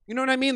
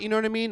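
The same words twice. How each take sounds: First: Higher, mushy words round a hot bite; hot pizza roll mouth. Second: Said in the usual way. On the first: Shown as a demonstration. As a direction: talk like your mouth is burning. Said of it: "talk like they just took a Totino's pizza roll". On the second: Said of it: "by the way, why do all tweakers".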